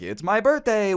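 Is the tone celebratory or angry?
celebratory. It is said in a happy, celebratory tone.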